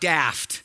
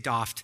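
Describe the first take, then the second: First: It is said in an American accent. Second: It is said in a British accent.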